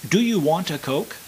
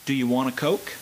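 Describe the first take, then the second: First: The words are said separately, without linking. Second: The words flow smoothly linked together. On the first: "this is just an example" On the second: "as an American would speak it"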